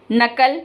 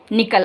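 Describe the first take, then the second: First: नकल said na-kal with a plain short a; short a vowel. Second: निकल said ni-kal with a short i in the first syllable; short i vowel. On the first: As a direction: say नकल with the open a in the first syllable. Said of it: "अब नकल क्या होता है?". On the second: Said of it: "निकल मतलब वहाँ से". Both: Shown as a demonstration. Teacher contrasting the vowels for pupils.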